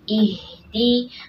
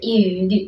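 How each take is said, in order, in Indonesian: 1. Huruf h ringan, tipis, dan berdesah. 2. Huruf h berat dan didorong dari dada. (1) "Ihdi tipiskan saja, alirkan suaranya, alirkan nafasnya" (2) "berlebihan, ya, sampai dari dada suaranya"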